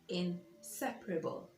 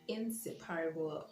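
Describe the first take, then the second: First: The stress is on the second syllable. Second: The stress is not on the second syllable. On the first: The speaker calls it right. "So the stress is on the second syllable" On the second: The speaker calls it wrong. "And not inseparable or whatever"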